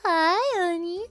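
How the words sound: It is said in a doting, motherly voice. "That's my, that's my mother voice"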